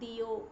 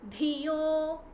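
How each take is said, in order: First: It starts with a plain d sound. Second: It starts with a breathy, aspirated dh sound. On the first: The speaker calls it wrong. "It is not diyo" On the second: The speaker calls it right. "Again it is second dha"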